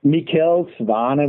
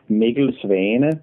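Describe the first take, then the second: First: Mikkel Svane said the American way; American pronunciation. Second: Mikkel Svane said slowly the Danish way; Danish pronunciation. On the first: Guest giving host his name for the record, American pronunciation of Mikkel Svane. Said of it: "would be the American way of saying it". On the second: Guest showing his name in his own language, slow Danish pronunciation of Mikkel Svane. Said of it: "In Danish, my name would be more like". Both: Shown as a demonstration.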